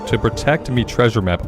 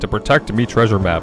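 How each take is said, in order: First: It is read in a plain, ordinary voice. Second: It is read in a put-on pirate accent.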